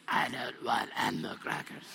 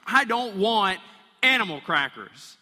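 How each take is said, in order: First: Put-on lower, strange, growled kid's voice; low demon voice. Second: Put-on kid's loud protest, higher and louder; loud refusal. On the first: Pastor mimicking his kid as a creepy growl. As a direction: make the kid sound possessed and eerie. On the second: Kid in the back seat shouting at dad, loud protest. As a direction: yell it like a kid refusing a snack. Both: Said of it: "But it sounds more like this".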